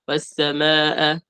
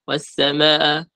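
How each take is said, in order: The two takes are said the same way.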